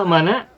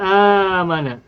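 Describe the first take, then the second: First: A glottal stop comes before the m. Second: A long vowel comes before the m. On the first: This is the underlying original form. "Semula a'mana" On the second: This is the form after the change. "dijadikan mad badal. Sehingga menjadi amana"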